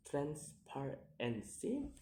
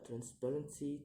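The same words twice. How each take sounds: First: "transparency" slowly split into syllables; slow, separated syllables on "transparency". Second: Said in the usual way. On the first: Shown as a demonstration. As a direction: sound out "transparency" piece by piece. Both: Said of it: "count the word syllable backwards".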